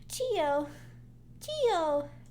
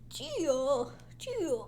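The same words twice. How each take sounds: First: It is said in the speaker's normal voice. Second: It is said in a put-on old man voice.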